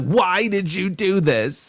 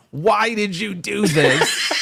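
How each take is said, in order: First: Put-on high, drawn-out kid voice; upset little girl. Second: Put-on high, slow, whiny kid voice; upset little girl. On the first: Retelling the daughter's plea to her father, high and slow. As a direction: imitate the crying girl, pitched up. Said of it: "the accent that she used". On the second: Father's crying daughter in the car, imitated high and whiny. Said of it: "I can't even replicate, like, the accent that she used".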